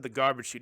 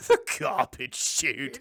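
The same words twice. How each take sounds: First: Said in the usual way. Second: Slow, loud put-on cry; mock horrified father. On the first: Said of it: "he said, he said". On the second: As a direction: exclaim it slowly in a hammed-up character voice. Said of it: "and he goes".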